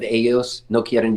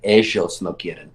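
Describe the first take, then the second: First: It is said in a neutral Spanish accent. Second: It is said in an Argentine Spanish accent.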